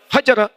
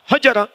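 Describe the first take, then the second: First: The first vowel is short and quick. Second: The same.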